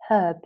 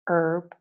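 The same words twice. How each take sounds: First: The word starts with an audible h sound. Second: The word starts with no h sound. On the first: "In British English, the words are pronounced herb" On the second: "the H is only mute when we use American pronunciation"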